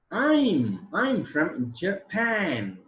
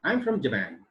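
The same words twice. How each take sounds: First: Very slow, higher-pitched, stretched words; slow demonstration reading. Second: Said in the usual way. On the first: Shown as a demonstration. Teacher repeating the example sentence for students, very drawn out. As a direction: draw out each word of the example answer. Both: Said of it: "is the sentence transcription".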